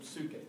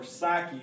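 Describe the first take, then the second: First: It is said with the original Greek pronunciation. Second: It is said with the modern English pronunciation. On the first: "but really" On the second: "is the way we pronounce it nowadays"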